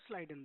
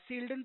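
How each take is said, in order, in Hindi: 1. नाम की शुरुआत 'sl' समूह और 'ai' से होती है। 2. नाम की शुरुआत लंबी 'seel' आवाज़ से होती है। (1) "हम इनको स्लाइडेन बोलते हैं" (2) "बहुत सारे लोग सील्डन प्रोनाउंस करते हैं"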